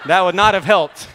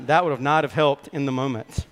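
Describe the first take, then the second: First: Much louder and higher, laughing through it. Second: Said in the usual way. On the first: Real, not acted. Preacher laughing at his brother's storm memory, loud laugh. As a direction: burst out laughing at the thought.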